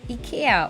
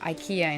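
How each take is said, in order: First: It is pronounced the Japanese way. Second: It is pronounced the English way.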